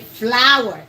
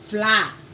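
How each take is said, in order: First: The word sounds the same as 'flower'. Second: The word is said as a short 'fla'. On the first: The speaker calls it right. "the correct pronunciation for that is the same as flowers" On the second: The speaker calls it wrong. "flower is not pronounced fla. I see a lot of Ghanaians pronounce it fla"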